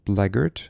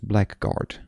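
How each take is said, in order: First: The second syllable is reduced, like 'blaggard'. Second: The second syllable is a clear 'guard'. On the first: This is the accepted pronunciation of the word. "Why is this pronounced blackguard?" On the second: This is how one would guess it from the spelling. "Normally I would have just pronounced this blackguard"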